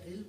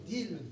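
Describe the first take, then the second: First: The consonant is pronounced as an R sound. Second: The consonant is pronounced as a D sound. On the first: The speaker calls it right. "instead of Ray, Ril" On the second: The speaker calls it wrong. "Dil instead of"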